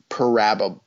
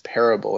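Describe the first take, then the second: First: The word ends with an added 'bowl' sound. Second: The word ends with a short 'bull' sound. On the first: Someone else said it. The speaker calls it wrong. "she was like, parabole" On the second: The speaker said it. The speaker calls it right. "no, the word is parable"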